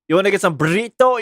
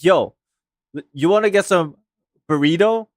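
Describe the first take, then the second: First: Burrito is said with a Spanish accent. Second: Burrito is said with an American English accent.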